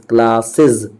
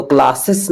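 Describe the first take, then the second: First: क्लासेस said klaa-siz, ending in a z; klaa-siz, voiced z ending on क्लासेस; correct pronunciation. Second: क्लासेस ending in a sharp s, klaa-sis; क्लासेस said klaa-sis with a hissing ending; wrong pronunciation. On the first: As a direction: teach the right way to say क्लासेस. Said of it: "इसको बोलेंगे क्लासेस". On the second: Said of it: "तो क्लासेस wrong है pronunciation". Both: Shown as a demonstration.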